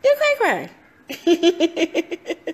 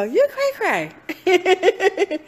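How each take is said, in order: First: Squealed very high and loud, breaking into a laugh; giggly teasing self-talk. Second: High, drawn-out playful mock scolding; teasing self-talk. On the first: Retold or imitated. Speaker mocking herself in self-talk, squealing high with laughter. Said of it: "I'm like". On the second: Speaker teasing herself in her own self-talk, high and slow. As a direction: tease yourself slowly, singsong. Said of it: "I go".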